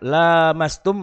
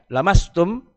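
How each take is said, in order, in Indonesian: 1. Vokal pertama diucapkan panjang. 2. Vokal pertama diucapkan pendek. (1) "bila dibaca panjang" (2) "kalau dibaca pendek"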